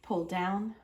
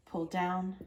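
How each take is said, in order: Both takes have the same delivery.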